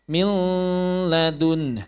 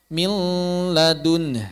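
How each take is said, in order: Both takes have the same delivery.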